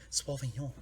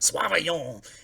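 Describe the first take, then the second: First: It is said plainly, without an exaggerated accent. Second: It is said with an exaggerated, fancy French accent. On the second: "hilariously instead of normal ... as a like actual fancy French guy might say"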